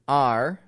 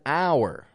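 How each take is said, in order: First: The word sounds like 'ar', rhyming with car. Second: The word sounds like 'hour', with an 'ow' vowel. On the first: The speaker calls it right. "have the same pronunciation" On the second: The speaker calls it wrong. "this should always be avoided in the American accent"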